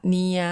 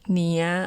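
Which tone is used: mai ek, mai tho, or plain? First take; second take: plain; mai tho. First: It is said with the plain, unmarked tone. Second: It is said with the mai tho tone. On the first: "ผันเสียงว่า" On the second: "เนียโทเนีย"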